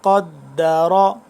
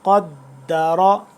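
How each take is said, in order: The two takes are said the same way.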